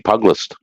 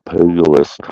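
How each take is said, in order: First: "Pug List" said as two syllables, pug-list; mispronounced name. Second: "Pugilist" in three syllables, PYOO-juh-list; corrected name. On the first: Streamer misreading a viewer's name, "Pug List" as pug-list. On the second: Streamer correcting a viewer's name, "Pugilist" as PYOO-juh-list. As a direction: say "Pugilist" with the middle syllable restored. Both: Real, not acted. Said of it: "I've been saying it wrong".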